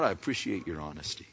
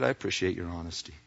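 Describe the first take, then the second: First: Soft, gentle appreciation; quiet sincere appreciation. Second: Soft and fast, offhand kindness; quick soft appreciation. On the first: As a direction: say it softly, kindly. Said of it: "He just says". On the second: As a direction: toss it off quietly and kindly. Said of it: "He says". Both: Acted.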